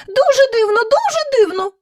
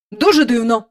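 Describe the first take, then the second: First: Much higher chorus echo; courtiers echoing. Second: Said in the usual way. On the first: Acted. Courtiers echo the king, much higher. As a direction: mimic the king like fawning courtiers. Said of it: "сказали придворні й собі". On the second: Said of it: "мовив король".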